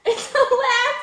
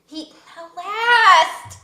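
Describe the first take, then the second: First: "alas" said plainly as "a-LAS", no T at the end; laughing, say "alas" cleanly, stressing the second syllable; correct alas. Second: "alas" said slowly with a T sound at the end, "alast"; mispronounced alas. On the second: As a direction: drag out "alas" as "alast", falling. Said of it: "it's not how you say the word". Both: Shown as a demonstration.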